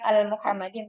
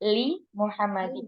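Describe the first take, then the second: First: The prefix is said as 'al'. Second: The prefix is said as 'li'. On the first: The speaker calls it wrong. "bukan al Muhammadin" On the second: The speaker calls it right. "tapi li Muhammadin"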